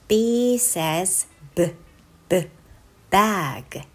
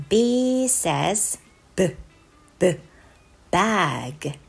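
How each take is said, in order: No difference in how they are said.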